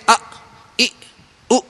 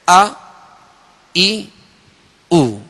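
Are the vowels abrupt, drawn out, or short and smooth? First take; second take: abrupt; smooth. First: The vowels are cut off with a jerk. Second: The vowels are short and smoothly released. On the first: The speaker calls it wrong. "झटका भी नहीं देंगे" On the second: The speaker calls it right. "बल्कि आ ई उ इस तरह पढ़ेंगे"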